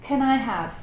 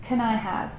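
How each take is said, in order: First: 'Can' is unstressed and reduced to a schwa. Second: The same.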